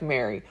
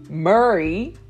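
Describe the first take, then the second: First: The first vowel sounds like the one in 'hair'. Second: The first vowel sounds like the one in 'hurry'. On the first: The speaker calls it wrong. "It sounded like Mary" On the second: The speaker calls it right. "like Murray"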